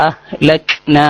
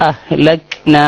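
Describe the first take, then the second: No difference in how they are said.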